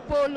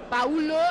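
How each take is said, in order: First: The 'au' is said as a single 'o' vowel. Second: The 'au' is said as two separate vowels. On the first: The speaker calls it wrong. "et non Polo en français" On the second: The speaker calls it right. "il faut tout prononcer"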